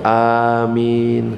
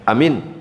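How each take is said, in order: First: Both vowels are long. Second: Both vowels are short. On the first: It means grant our prayers. The speaker calls it right. "Yang benar A-nya panjang, Min-nya juga panjang" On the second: It means honest. The speaker calls it wrong. "Pendek misalkan"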